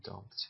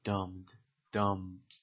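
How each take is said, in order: First: "dumped" with the P pronounced. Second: "dumped" with the P left silent. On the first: English teacher showing learners what not to say, "dumped" with P sounded. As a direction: sound the P before the final T in "dumped". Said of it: "این پی تلفظ نمیشه، نمیگم". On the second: English teacher modelling "dumped" for learners, P dropped. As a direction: say "dumped" as "dumd", no P. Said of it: "این پی تلفظ نمیشه". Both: Shown as a demonstration.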